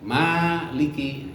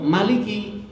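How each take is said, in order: First: The first vowel is held long. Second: The first vowel is kept short. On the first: It means owner or master. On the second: It means king.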